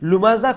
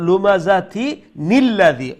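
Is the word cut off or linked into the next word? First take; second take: cut off; linked. First: The word stops short with no n sound. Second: The word runs into the next with an n sound. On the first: The recitation stops at this word. "এখানে স্টপ হয়ে যায় তাইলে এই নুন আহ, উচ্চারণ হইতো নয়" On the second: The recitation continues without stopping. "Continue করবা"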